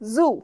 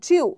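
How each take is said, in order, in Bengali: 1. স্বরধ্বনিটি একটি সাধারণ দীর্ঘ 'oo': 'zoo'। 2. স্বরধ্বনিটি 'y' ধ্বনি দিয়ে শুরু হয়: 'zew'। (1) "I am going to the জু" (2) "জুকে অনেকে জিউ বলে ... জিউ বলে কিছু হয় না"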